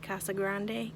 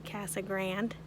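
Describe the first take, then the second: First: The name is pronounced differently from local usage. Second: The name is pronounced the way locals say it. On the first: This is not how people here say it. The speaker calls it wrong. "Don't say Casa Grande because that's not what they say here" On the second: This is how people here say it. The speaker calls it right. "Say Casa Grande"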